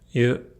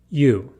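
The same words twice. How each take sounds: First: The vowel is said with nearly neutral lips. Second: The vowel is said with strongly rounded lips. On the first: This is the Japanese vowel. "this doesn't occur" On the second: This is the English vowel. "my lips become rounded and protrude forward significantly"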